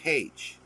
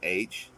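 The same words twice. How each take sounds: First: The letter name starts with an h sound. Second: The letter name starts with a vowel sound. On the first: "they'll say H, like hey" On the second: "instead of saying H for the letter H"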